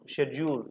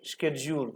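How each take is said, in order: First: It is said the British way, 'shed-yool'. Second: It is said the American way, 'sked-jool'.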